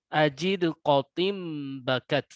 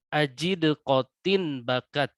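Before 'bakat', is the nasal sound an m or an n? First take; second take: m; n. First: The n before b turns into m. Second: The n before b stays as n. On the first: "kalau diiklabkan" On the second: "kita bacakan sesuai apa adanya"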